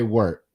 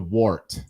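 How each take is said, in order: First: The vowel sounds like the one in 'were'. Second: The vowel sounds like the one in 'war'. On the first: "I think I say it more like W E R T" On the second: "as opposed to"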